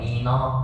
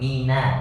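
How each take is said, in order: First: The vowel is thick and rounded, like o. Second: The vowel is thin and open, like a. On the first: The speaker calls it wrong. "Pak Reza masih baca mino" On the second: The speaker calls it right. "Na tipis"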